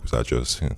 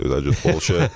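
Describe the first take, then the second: First: Said in the usual way. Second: Lightly imitating a Brooklyn guy; Brooklyn accent. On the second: Quoting the Brooklyn-born director, light Brooklyn accent. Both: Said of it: "he's from Brooklyn".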